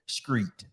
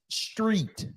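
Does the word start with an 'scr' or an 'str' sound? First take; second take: scr; str. First: The word starts with an scr sound. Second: The word starts with an str sound. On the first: The speaker calls it wrong. "I'm up here, screet, screet" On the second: The speaker calls it right. "I'm trying to say street, street"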